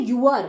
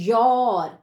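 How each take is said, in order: First: "your" split into "yoo-er"; wrong pronunciation. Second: "your" as one syllable, "yor"; correct pronunciation. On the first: Teacher showing how some children misread it, mispronounced. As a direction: say "your" as "you" plus "er". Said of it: "your गलत pronunciation है". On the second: Teacher modelling the right word for children, correctly pronounced. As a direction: say "your" with an aw vowel, firmly falling. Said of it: "सही कैसे pronounce करते हैं". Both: Shown as a demonstration.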